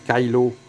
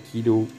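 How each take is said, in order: First: The first vowel sounds like 'eye'. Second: The first vowel sounds like 'ee'. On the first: The speaker calls it right. "Ça se prononce Kylo" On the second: The speaker calls it wrong. "pas Kilo"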